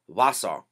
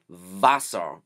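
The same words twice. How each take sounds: First: The word begins with an English W sound. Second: The word begins with a V sound. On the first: This is the Pennsylvania Dutch pronunciation. "the W stays more of an English style W" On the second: This is the standard German pronunciation. "in German you would say Wasser with a V sound"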